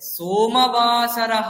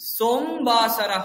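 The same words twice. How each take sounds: First: A full vowel is sounded after the m. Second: The vowel after the m is dropped. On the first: The speaker calls it right. "এটা ঠিক" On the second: The speaker calls it wrong. "এটা ভুল"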